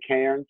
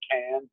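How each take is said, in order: First: The word is said with an R sound. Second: The word is said without an R sound. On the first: This is how Americans say it. "We would say Cairns as Americans" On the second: This is how locals in Australia say it. "They say Cairns, like C A N N S, no R"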